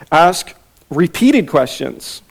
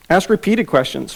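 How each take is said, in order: First: Slow, weighty emphasis on "Ask repeated questions"; slow emphatic. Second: Said in the usual way. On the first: Shown as a demonstration. Teacher announcing point two slowly. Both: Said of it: "number one".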